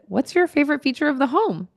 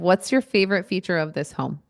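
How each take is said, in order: First: The voice rises at the end, like a question. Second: The voice falls at the end, sounding confident.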